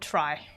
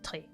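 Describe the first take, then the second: First: The vowel sounds like the word 'try'. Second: The vowel sounds like the word 'tree'. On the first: The speaker calls it wrong. "you would not pronounce it tri" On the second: The speaker calls it right. "You would pronounce it tri"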